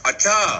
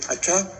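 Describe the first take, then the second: First: It sounds angry and loud. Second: It sounds surprised and shocked.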